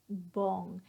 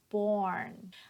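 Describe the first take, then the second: First: The R sound is left out. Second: The R sound is clearly pronounced. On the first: The speaker calls it wrong. "that R sound is missing" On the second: The speaker calls it right. "make sure that you get that ern"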